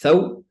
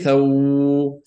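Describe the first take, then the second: First: The sound is kept short. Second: The sound is held out long. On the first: The speaker calls it right. "Just thaw" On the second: The speaker calls it wrong. "don't say thaw, thay. Don't hold it"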